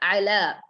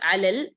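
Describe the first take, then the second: First: It ends on a long, stretched vowel. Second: It ends with an added L sound. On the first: The speaker calls it right. "It should be a little stretchable" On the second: The speaker calls it wrong. "It's not alal"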